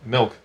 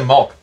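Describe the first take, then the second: First: The vowel sounds like a short 'ih'. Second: The vowel sounds like an open 'ah'. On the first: This is the usual way to say it. "Which you would say milk" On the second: This is how some other people say it. "It's like when people say malk"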